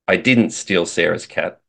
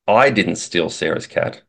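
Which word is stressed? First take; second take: didn't; I. First: The stress is on the word 'didn't'. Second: The stress is on the word 'I'. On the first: The speaker denies doing it at all. "says that I didn't do it" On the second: Someone other than the speaker stole it. "infers that it wasn't me, but somebody else stole it"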